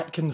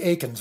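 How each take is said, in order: First: A t sound comes before the k. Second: No t sound comes before the k. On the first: The speaker calls it wrong. "I cannot get Atkins out of my head" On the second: The speaker calls it right. "It's supposed to be Akins"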